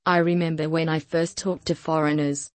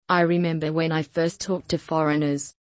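Both takes have the same delivery.

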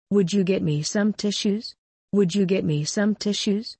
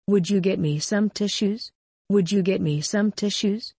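No difference in how they are said.

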